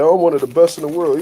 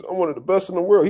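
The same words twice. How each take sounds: First: Louder, mock-defensive claim; a touch of hammed-up pride; mock proud insistence. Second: Said in the usual way. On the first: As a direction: imitate a fighter insisting on his rank. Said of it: "Jermell was like".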